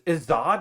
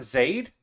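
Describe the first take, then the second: First: The vowel sounds like the one in god. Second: The vowel sounds like the one in made. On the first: The speaker calls it right. "Zod and like God" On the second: The speaker calls it wrong. "not a Zaid?"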